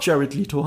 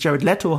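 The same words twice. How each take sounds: First: "Leto" said as LEE-toh; joke pronunciation. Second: "Leto" said as LEH-toh; correct pronunciation. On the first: Retold or imitated. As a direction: say "[name]" with a long ee. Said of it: "dass es in Wirklichkeit doch". ("Leto" mit langem i, wie "Lito") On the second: Shown as a demonstration. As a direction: say "[name]" with an eh in Leto. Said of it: "haben ihn so viele Leute darauf hingewiesen". ("Leto" mit e, wie "Letto")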